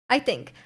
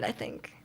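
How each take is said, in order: First: Said in the usual way. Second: Whispered, much lower and softer aside; under breath. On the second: Real, not acted. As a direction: breathe it to yourself as an afterthought. Repeats hedge under breath.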